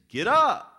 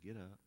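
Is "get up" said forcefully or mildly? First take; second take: forcefully; mildly. First: It is said forcefully, with authority. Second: It is said mildly, without force. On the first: It is a powerful command. "there is authority and there is power in the voice" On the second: It is only a casual suggestion. "He just didn't walk up to that man and say"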